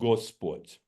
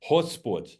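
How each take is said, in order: First: The word begins with a hard G sound. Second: The word begins with a breathy H sound. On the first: The speaker calls it wrong. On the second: The speaker calls it right. "is pronounced as a H, as an H"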